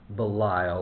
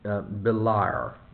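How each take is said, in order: First: The name ends with an L sound. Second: The name ends with an R sound. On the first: "Or who is Belial?" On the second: "as some translators render it, B-E-L-I-A-R"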